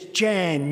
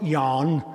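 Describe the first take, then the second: First: The name is said with an English pronunciation. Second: The name is said with a Dutch pronunciation. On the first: The name is forced into the local form. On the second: The name keeps its original form.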